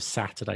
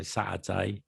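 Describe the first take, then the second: First: Said in the usual way. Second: "Saturday" with the T replaced by a glottal stop. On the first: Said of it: "Instead of Saturday". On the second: Shown as a demonstration. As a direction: drop the T in "Saturday", Cockney style. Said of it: "You have, like, glottal stops".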